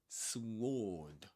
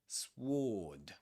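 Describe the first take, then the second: The two takes are said the same way.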